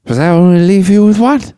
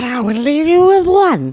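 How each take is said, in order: First: High, loud punchline rising at the end; exaggerated movie quote. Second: High, drawn-out imitation swooping upward; over-exaggerated movie quote. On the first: Quoting Dad's favorite line, in an exaggerated high voice. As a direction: belt out the question, pitched way up. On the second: Redoing Dad's favorite line, really over-exaggerated. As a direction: stretch the line out and ham it up. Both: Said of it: "Really over-exaggerated".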